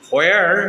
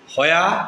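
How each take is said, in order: First: It is said in an American accent. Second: It is said in a British accent. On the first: "American sound" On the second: "British sound"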